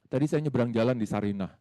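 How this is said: It is said with lively, animated expression.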